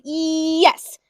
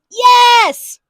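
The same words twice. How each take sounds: First: It is said at normal volume. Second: It is yelled loudly.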